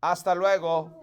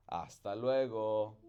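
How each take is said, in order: First: "Hasta luego" said loud and high in clear Spanish; teacher modelling "Hasta luego" in Spanish; Spanish model phrase. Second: "Hasta luego" in plain Spanish at story pitch; story reading "Hasta luego" in Spanish; Spanish farewell. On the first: Shown as a demonstration. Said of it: "you guys can repeat after me". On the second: A narrator's reading. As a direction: read "Hasta luego" in Spanish without fuss. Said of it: "That's what that says".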